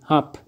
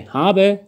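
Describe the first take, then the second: First: The word ends without the final vowel. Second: The word ends with a weak final vowel. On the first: "توی تلفظ سریعتر اشوا رو بردارید و بگید hab" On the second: "میتونید به جای habe"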